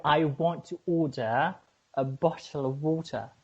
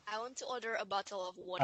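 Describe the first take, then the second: First: Deliberate British accent, pausing before "a bottle". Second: Quiet, unconvincing British accent attempt; failed British accent. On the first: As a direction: model British pronunciation in two measured phrases. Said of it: "It's British". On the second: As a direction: attempt British but stay American. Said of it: "no, you can't". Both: Shown as a demonstration.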